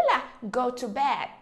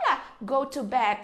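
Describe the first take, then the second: No difference in how they are said.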